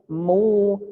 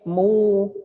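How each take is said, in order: No difference in how they are said.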